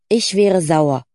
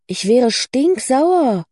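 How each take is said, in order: First: Emphatic, falling "Ich wäre sauer"; firm insistence. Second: High, drawn-out indignation on "stinksauer"; outraged. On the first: Cora insisting to doubtful Lucy, firm. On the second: Cora on hearing Lucy's news, outraged on her behalf. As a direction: stretch "stinksauer" out, swooping high. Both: Acted.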